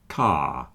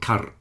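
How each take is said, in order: First: No R sound is pronounced at the end. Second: An R sound is pronounced at the end. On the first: The speaker calls it right. "it's car" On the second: The speaker calls it wrong. "It's not K, A, R, not kar"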